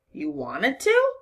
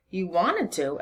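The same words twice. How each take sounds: First: Slow, incredulous rising question; disbelief. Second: A touch of stunned echo; mild disbelief. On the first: Constable questioning the girl's willingness, incredulous. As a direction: stretch it out, voice climbing at the end. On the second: Constable echoing the girl's claim, mildly disbelieving. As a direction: echo it back, hardly believing. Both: A narrator's reading. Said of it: "his eyes wide with disbelief".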